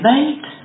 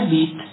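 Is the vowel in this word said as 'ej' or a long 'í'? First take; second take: ej; í. First: The vowel is said as the diphthong ej. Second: The vowel is said as a long í. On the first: It is the normal everyday way of speaking. The speaker calls it right. "Nemluvte spisovně. Bejt má být" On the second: It is the formal standard way of speaking. The speaker calls it wrong. "ne být. Oni v politice říkají být"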